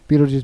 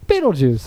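First: The name is said quickly, run into the next one. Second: The name is said slowly, with a pause after.

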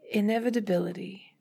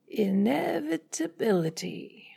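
First: The word is said at a normal pace. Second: Each syllable is stretched, with pitch rising and falling.

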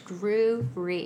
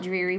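First: The first syllable sounds like 'drew'. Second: The first syllable sounds like 'dree', as in dreary. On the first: The speaker calls it right. "but it's Drury" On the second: The speaker calls it wrong. "People want to call it Drury"

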